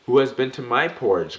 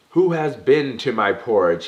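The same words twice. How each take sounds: First: Louder, higher cross growl; mama bear growling. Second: Loud, high bellowing roar; papa bear roaring. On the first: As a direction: growl it like an annoyed mother bear. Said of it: "growled out Missus B". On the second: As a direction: roar it out like a huge bear whose porridge is gone. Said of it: "he roared with such might". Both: A narrator's reading.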